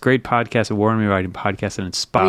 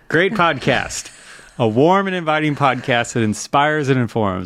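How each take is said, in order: First: It is read quickly and hard to follow. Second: It is read slowly and warmly.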